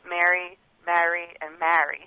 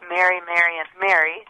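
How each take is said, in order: First: The three words have three different vowels. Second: The three words have the same vowel. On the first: "in her dialect she did have three separate vowels" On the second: "even though in my ears they sounded exactly the same"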